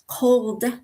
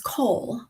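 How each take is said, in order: First: The final consonant sound is pronounced. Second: The final consonant sound is dropped. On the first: The speaker calls it right. "they just drop off the last letter" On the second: The speaker calls it wrong. "Those are mispronunciations"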